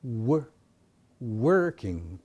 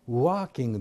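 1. wは唇を強く丸め、前に突き出して始めます。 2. wは唇を突き出さず、弱く発音します。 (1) "working という発音になります" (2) "working でなく"

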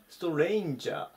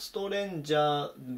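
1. 最初の母音は、'ei'のように滑る音です。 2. 最初の母音は、ただの'e'の音です。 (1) "ストレインジャーで" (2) "ストレンジャーではなくて"

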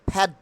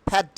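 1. p উচ্চারণ করা হয় জোরালো বাতাসের ফুৎকার দিয়ে। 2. p উচ্চারণ করা হয় জোরালো বাতাসের ফুৎকার দিয়ে।

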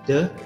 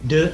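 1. Vokal pada kata itu pendek. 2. Vokal pada kata itu panjang. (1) "Biasanya kita mengucapkan the dengan nada yang pendek seperti berikut" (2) "apabila the datang sebelum kalimat atau huruf vokal, kita ucapkan lebih panjang"

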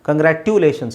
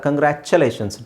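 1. ಮಧ್ಯದ ವ್ಯಂಜನ ಸರಳ 't' ಸದ್ದು. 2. ಮಧ್ಯದ ವ್ಯಂಜನ 'ch' ಸದ್ದು. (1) "ಕಂಗ್ರ್ಯಾಟ್ಯುಲೇಷನ್ಸ್ ಅಲ್ಲ" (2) "TU ಬಂದಾಗಲೇ ಚ ಅಂತ ಬರುತ್ತೆ"

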